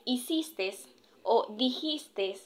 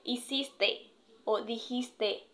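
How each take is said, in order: First: Both words end with an added s sound. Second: Both words end with a plain vowel e. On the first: The speaker calls it wrong. "Tenemos lo que es" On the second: The speaker calls it right. "normalmente se le dice"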